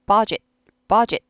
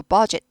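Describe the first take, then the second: First: "budget" with the d barely heard; soft d budget. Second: "budget" with the final d sound fully spoken; wrong budget. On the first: Teacher modeling "budget" with a soft d for students. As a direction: swallow the d in "budget". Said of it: "드가 잘 안 들리죠?". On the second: Teacher showing learners the wrong "budget". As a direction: say "budget" with a clear d ending, the wrong way. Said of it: "아니고 budget". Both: Shown as a demonstration.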